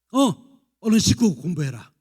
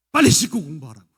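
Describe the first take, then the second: First: Loud curt mother's order; nagging mother. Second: Loud impatient demand, stress on 빨리; nagging order. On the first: Mother ordering exhausted teen at 11pm, loud and curt. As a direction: snap at the kid to wash and study. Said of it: "엄마가 이렇게 말할 때래요". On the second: Mother pushing teen home late to study, loud and impatient. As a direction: push 빨리 hard and loud. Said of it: "엄마도 그렇게 시키면 안 할걸요". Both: Retold or imitated.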